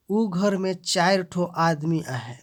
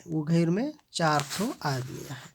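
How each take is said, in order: First: चार said slower and louder; stress on चार. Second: Said in the usual way. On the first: Shown as a demonstration. Teacher showing adjective stress, चार stressed. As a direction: give चार real weight. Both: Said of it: "विशेषण पर जोर दिया गया है".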